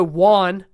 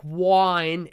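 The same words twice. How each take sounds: First: "wine" said as "wahn" with a flattened vowel; Johannesburg wine. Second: "wine" with the pitch going up at the end; rising wine. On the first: Johannesburg speaker showing how locals say wine. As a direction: say "wine" like "wahn", open and flat. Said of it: "they'll go wine". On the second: Johannesburg speaker showing the rising local "wine". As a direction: lift the end of "wine" upward. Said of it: "they go up at the end". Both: Shown as a demonstration.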